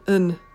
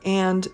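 First: The word is said as a weak un sound. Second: The word is said in full with its vowel. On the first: The speaker calls it right. "or even un" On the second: The speaker calls it wrong. "is almost never pronounced as and in a sentence"

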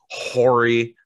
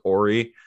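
First: The name starts with an audible H sound. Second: The name starts with a vowel, no H. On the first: The speaker is showing disrespect to the player. "I'm going to go ahead and pronounce the H" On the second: This is how the player himself says it. "he very much says that his name is Ori"

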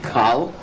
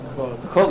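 First: The vowel is pronounced as an 'ah' sound. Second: The vowel is pronounced as an 'oh' sound. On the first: The speaker calls it wrong. "you're not going to read Kal" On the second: The speaker calls it right. "you're going to read Kol Yisrael"

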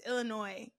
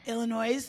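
First: The word ends without any s sound. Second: The word ends with an audible s sound. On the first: The speaker calls it right. "it's silent at the end" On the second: The speaker calls it wrong. "that is not how you say that"

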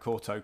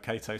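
First: The first vowel sounds like 'or'. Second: The first vowel sounds like 'ay'. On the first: This is the official pronunciation. "some names that everyone says different ways" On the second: This is how many commentators said it. "a lot of the commentators called him Cato"

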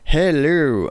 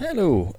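First: The hello is said with more energy. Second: The hello is said weakly, without energy.

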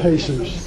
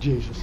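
First: The name has a Spanish pronunciation. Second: The name has an English pronunciation. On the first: "They pronounce it Jesus" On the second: "they don't pronounce it Jesus"

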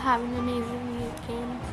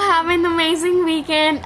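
First: It is said at normal volume, calmly. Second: It is said louder, with more energy.

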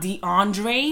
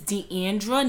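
First: The name ends in an 'ay' sound. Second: The name ends in an 'ah' sound. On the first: The speaker calls it wrong. "not DeAndre. My name does not have an E at the end" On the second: The speaker calls it right. "My name is Deandra"

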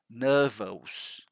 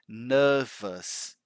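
First: The word ends with an 'os' sound. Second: The word ends with an 'us' sound. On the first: The speaker calls it wrong. "some students, they pronounce nervous. ... That's not right" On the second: The speaker calls it right. "we don't say this ending here as os, right? Always us"

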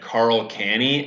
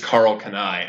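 First: The surname ends with an 'ee' sound. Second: The surname ends with an 'eye' sound. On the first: The name was mispronounced. The speaker calls it wrong. "And I said Carl Canny" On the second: This is the correct pronunciation of the name. The speaker calls it right. "the guy working there was like, it's Carl Canai"

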